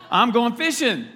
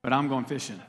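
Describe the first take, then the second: First: Louder and higher, going fishing with gusto; I'm going fishing, shouted with glee; eager declaration. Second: Said in the usual way. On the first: Shown as a demonstration. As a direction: announce it like the best plan ever.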